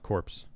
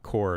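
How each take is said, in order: First: The word ends with a p and s sound. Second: The word ends in a plain r sound. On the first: The speaker calls it wrong. "I did mispronounce it" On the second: The speaker calls it right. "core, not corpse"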